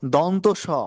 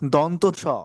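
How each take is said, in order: Both takes have the same delivery.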